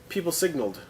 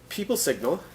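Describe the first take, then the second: First: "signaled" ends in a faint D sound; teacher shows the faint ending of "signaled"; slight D ending. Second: "signal" ending cleanly on the L; teacher contrasts "signal" with "signaled" for learners. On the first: "people signaled" with a light D at the end. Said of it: "at the end of the signaled, slight id sound". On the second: "people signal" with no D sound. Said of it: "at the end of the signaled". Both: Shown as a demonstration.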